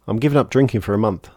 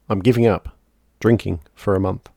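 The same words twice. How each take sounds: First: It is said as one phrase without a pause. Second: There is a pause after giving up.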